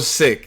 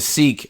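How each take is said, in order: First: The vowel is a short 'i', like 'sick'. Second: The vowel is a long 'ee', like 'seek'. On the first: This is how the community itself says it. The speaker calls it right. "that's even more reason for me to say the shit right" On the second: This is the colonial English pronunciation. The speaker calls it wrong. "I was saying seek. I was one of the guys doing that"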